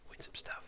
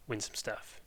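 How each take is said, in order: First: Breathless whispered echo. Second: Said in the usual way. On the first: Real, not acted. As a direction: whisper the words back softly. Echoed as whisper.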